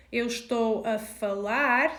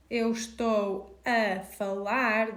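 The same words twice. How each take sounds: First: Clearly spoken Portuguese 'Eu estou a falar'; Portuguese example phrase. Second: 'Eu estou a falar' repeated slowly, word by word. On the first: Teacher modelling 'Eu estou a falar' for a student. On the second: Teacher slowly repeating the phrase for learners. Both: Shown as a demonstration. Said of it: "So if I'm saying".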